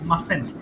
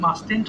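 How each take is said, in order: First: No t sound is heard before the last syllable. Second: A t sound is heard before the last syllable. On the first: The speaker calls it right. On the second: The speaker calls it wrong. "অনেকে ভুল করে মাস্টেন্ট বলে ফেলে, এটা কিন্তু মাস্টেন্ট হবে না"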